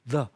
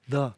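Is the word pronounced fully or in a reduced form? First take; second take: reduced; reduced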